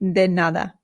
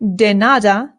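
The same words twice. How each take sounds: First: The D is soft, tongue near teeth. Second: The D is hard, like English. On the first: The speaker calls it right. "the D in Spanish is much softer than it is in English" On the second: The speaker calls it wrong. "So this is not de nada"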